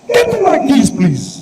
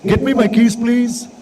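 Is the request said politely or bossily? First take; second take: bossily; politely. First: It is said as a bossy, commanding demand. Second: It is said as a gentle, polite request.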